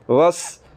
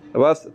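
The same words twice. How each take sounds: First: The s is sharp with a whistle. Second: The s has no whistle, like th. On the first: The speaker calls it right. "सीटी की आवाज़ निकलेगी" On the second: The speaker calls it wrong. "अगर सीटी की आवाज़ ना निकाली"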